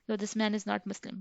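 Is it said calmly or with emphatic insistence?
calmly. It is said calmly, as a simple remark.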